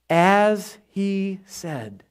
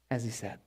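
First: Very slow, word by word; slow, measured emphasis; drawn-out reminder. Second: Very soft and low; barely voiced, acted recollection; hushed realization. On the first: Acted. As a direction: stretch each word out deliberately. Drawing out the angel's reminder. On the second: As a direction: murmur it as it dawns on you. Ladies realizing it, under breath.

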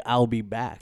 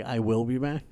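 First: "I'll" run together as one word; contracted catchphrase. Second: "I will" as two separate words; uncontracted catchphrase. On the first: Correcting co-host on the director's wanted line, contracted delivery. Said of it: "James Cameron wanted him to say". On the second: Retelling the actor questioning his director, uncontracted delivery. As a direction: say "I will be back" in full, as a question. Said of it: "'Cause he was like".

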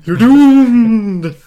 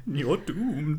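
First: Very high, loud wailing doomed; shrieked doom warning. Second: Ominous warning voice. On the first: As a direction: wail it like a mad prophet. Louder Crazy Ralph echo. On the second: Echoing Crazy Ralph. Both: Retold or imitated.

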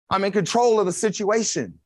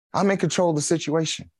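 First: "control" pressed a little higher, with a falling end; emphatic restatement. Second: Said in the usual way. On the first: Shown as a demonstration. Preacher repeating Jesus' words to the congregation, pressing "control". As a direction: lean into the word "control" as you repeat it.

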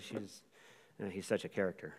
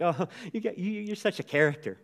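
First: Low, soft imitation of grandma's disapproval; disapproving grandma. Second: Higher-pitched, tickled imitation of grandma; amused grandma. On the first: Grandma watching political news, muttering disapproval. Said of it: "watching the news or something political comes on". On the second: Grandma to grandsons being silly, amused and fond. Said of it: "making her laugh, she'd be like".

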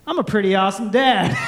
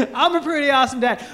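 First: Self-satisfied boast; smug dad. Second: Fast, laughing smug repeat; laughing boast. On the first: Dad going to bed, smugly pleased with himself. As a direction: brag about ten minutes of parenting. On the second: Dad repeating his boast to the crowd, laughing. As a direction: say it again through a laugh. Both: Retold or imitated. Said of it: "this is me".

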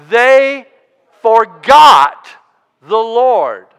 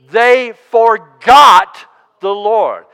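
First: Forgot split into two very loud, separate syllables; slow word-by-word build peaking on forgot; heavy stress on forgot. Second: Forgot drawn out and hit loud; slow, emphatic line with a loud, long forgot; stress on forgot. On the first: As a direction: break after They, then boom out forgot. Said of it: "emphasize the word". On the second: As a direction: punch forgot, then let the Lord settle. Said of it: "say that one more time". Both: Shown as a demonstration.

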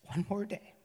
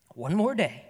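First: "One more day" said again, softer and hushed; softer repeat. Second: Said in the usual way. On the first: Retold or imitated. The father repeating his promise to his son, softer. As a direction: let the repeat fall away quietly.

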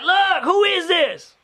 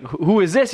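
First: Slow, high-pitched caller voice; imitated irate caller. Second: Said in the usual way. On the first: Imitating the repeated wrong-number caller, high exasperated voice. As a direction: demand it slowly in a high caller voice.

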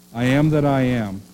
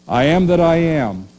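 First: Said in the usual way. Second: Louder, ringing declaration of I am that I am; proclaiming God's name. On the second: Retold or imitated. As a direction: announce I am that I am with weight. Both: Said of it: "He said".

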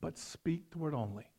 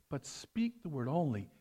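First: Soft, reverent reading of the centurion's request; humble plea. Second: Softly murmured, as at communion; mumbled prayer. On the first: Acted. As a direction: plead it quietly, humbly. Scripture quote, centurion's plea. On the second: Shown as a demonstration. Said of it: "Some of you hear us mumbling up there".

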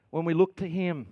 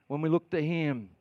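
The two takes are said the same way.

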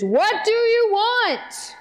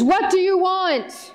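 First: Booming wizard demand; mock the wizard's scary boom. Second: Slow, mock-scary wizard demand; loud scary voice. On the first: Wizard scaring Dorothy, a mild mock scary boom. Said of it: "In this big, loud, scary". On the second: Wizard greeting Dorothy, a half-hearted scary voice. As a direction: try a scary wizard boom. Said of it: "I don't know if I do a loud, scary voice very well".

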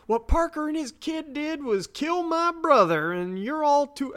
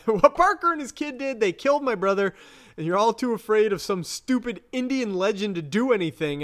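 First: High-pitched, indignant Southern woman; angry Southern drawl. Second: High, indignant retelling; angry voice. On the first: Retelling a furious woman at the pool table, angry Southern drawl. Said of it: "why am I making her Southern?". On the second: Retelling the woman whose brother was killed, acted anger. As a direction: play her mock-furious, pitched up. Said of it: "my default angry voice". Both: Retold or imitated.

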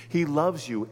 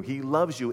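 First: He hit, loves you falling; stress on he. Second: Loves hit with a fall; stress on loves. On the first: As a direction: lean on the word He. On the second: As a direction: lean on the word loves. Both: Shown as a demonstration.

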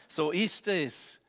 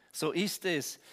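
No difference in how they are said.

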